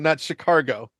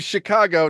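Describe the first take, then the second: First: It is said with an R sound. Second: It is said with no R sound. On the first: The speaker calls it wrong. "I flat out refuse to ever say it without the R" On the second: The speaker calls it right. "there's no R in it"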